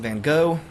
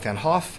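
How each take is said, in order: First: The name is said the usual American way. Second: The name is said the usual British way. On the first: "Americans tend to call him" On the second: "The British tend to call him"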